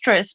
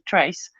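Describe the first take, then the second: First: The name is said with a short 'i' vowel. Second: The name is said with an 'ay' vowel. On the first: The speaker calls it wrong. "you guys might pronounce it probably as Tris" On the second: The speaker calls it right. "but it's pronounced Trace"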